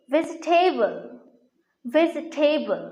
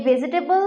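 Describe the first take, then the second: First: ভেজিটেবল as 'vej-TEI-bol'; corrected pronunciation. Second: ভেজিটেবল in four syllables, 'be-ji-te-bol'; common mispronunciation. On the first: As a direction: drop the 'i' after 'vej' in ভেজিটেবল. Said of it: "এর সঠিক উচ্চারণ হচ্ছে". (ভেজিটেবল-এর শুদ্ধ উচ্চারণ, 'ভেজ-টেবল') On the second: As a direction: say ভেজিটেবল with a full 'ji'. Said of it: "উচ্চারণটা কিন্তু ভুল". (ভেজিটেবল-এর ভুল উচ্চারণ, 'ভেজিটেবল') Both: Shown as a demonstration.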